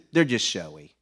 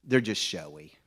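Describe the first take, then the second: First: Said again louder for the man who missed it; louder, spelled out for the man who asked what; repeated louder. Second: Said in the usual way. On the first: Retold or imitated. Repeating it louder to a man who didn't hear.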